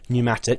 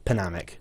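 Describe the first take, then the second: First: The word starts with no P sound. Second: The word starts with a sounded P. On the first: The speaker calls it right. "You don't pronounce the P" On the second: The speaker calls it wrong. "that's not how it's pronounced at all"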